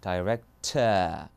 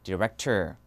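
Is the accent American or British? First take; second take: British; American. First: It is said with a British accent, r dropped. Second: It is said with an American accent, r sounded. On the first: "R 발음 빼야죠. director 이렇게가 들어갑니다" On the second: "미국에서는 director 이거고요"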